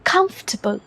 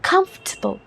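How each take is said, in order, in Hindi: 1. British accent, पहले शब्दांश पर जोरदार stress के साथ। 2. ब्रिटिश एक्सेंट, पहले शब्दांश पर जोरदार stress के साथ।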